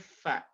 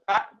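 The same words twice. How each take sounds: First: The consonant is said with flowing air. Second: The consonant is said without flowing air. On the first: The speaker calls it right. "ucapkan mengalir udaranya" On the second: The speaker calls it wrong. "Jadi bukan fa"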